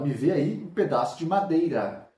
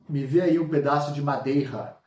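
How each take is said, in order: First: The R is a weak tapped sound. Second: The R is a strong throaty sound. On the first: The speaker calls it right. "A gente fala" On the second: The speaker calls it wrong. "A gente não fala assim"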